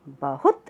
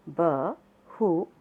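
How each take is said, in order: First: Said in the usual way. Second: बहुत drawn out as ब-हु-त; slow syllable reading. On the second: Shown as a demonstration. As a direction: spell out बहुत slowly. (बहुत धीरे-धीरे अक्षर तोड़कर) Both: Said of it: "साथ साथ बोलेंगे सब".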